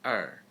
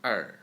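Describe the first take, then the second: No difference in how they are said.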